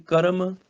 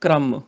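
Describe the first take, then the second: First: ਕਰਮ as ka-ram; full r. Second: ਕ੍ਰਮ as kramm, joined onset; half r. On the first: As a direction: say ਕਰਮ with a vowel between k and r. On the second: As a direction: run k straight into r in ਕ੍ਰਮ. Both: Shown as a demonstration. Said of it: "ਅੱਧਾ ਆਵੇ ਤੇ ਅੱਧਾ ਉਚਾਰਨ".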